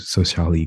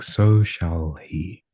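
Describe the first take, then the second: First: The words are quick and run together. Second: The words are slow and separated. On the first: The speaker calls it wrong. "as opposed to so shall he, because it doesn't sound nice" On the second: The speaker calls it right. "I'll probably have to like separate it"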